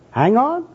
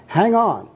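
First: Very high, rising query; mock-incredulous questioning echo; puzzled question. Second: High, emphatic and falling; firm, zealous command; fervent exhortation. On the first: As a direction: echo HANG ON in bafflement. Bum queries the evangelist's phrase. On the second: Acted. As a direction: urge HANG ON like an evangelist. Evangelist urges, bum will question.

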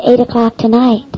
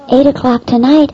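First: Said in the usual way. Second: Tonight rising into a shocked question; surprised echo. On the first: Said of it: "She said". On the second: Retold or imitated. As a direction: echo the time back in disbelief. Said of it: "I said".

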